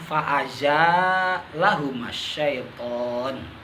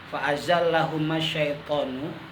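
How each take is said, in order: First: A long vowel follows the z, single l. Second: The l is doubled, with no long vowel.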